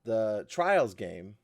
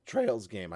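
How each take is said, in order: First: Said in the usual way. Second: "Trails" said clearly with the long A, not "Trials"; corrected word. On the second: Shown as a demonstration. Host correcting a slip, "Trails" said carefully. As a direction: stress the fixed "Trails" sound. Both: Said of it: "I kept saying Trials".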